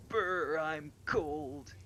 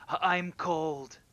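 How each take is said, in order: First: High, loud shivery brr; shivering with cold. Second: High, slow, playful ghostly whine; jokey ghost voice. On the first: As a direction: shiver as if freezing. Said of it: "like someone would do in a big shiver". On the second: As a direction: tease like a ghost who is cold. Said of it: "in kind of a jokey way". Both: Retold or imitated.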